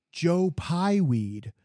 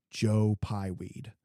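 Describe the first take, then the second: First: "Joe Pieweed" stretched slow and higher, louder; mock delighted recognition. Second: Slow, separated "Joe Pieweed" with each part clear; Joe Pieweed said carefully. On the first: The clerk finally recognizing the plant name, slow delighted drawl. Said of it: "is like, Oh". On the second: Retold or imitated. Clerk naming the plant at last, slow careful pronunciation. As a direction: spell out "Joe Pieweed" slowly, three clear parts. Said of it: "we finally get to the point".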